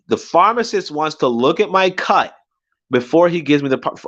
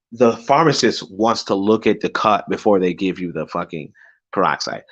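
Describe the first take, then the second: First: Incredulous, higher-pitched indignant repeat; pissed off. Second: Said in the usual way. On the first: Retold or imitated. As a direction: throw the demand back in disbelief. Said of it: "I'm just fucking pissed at this point".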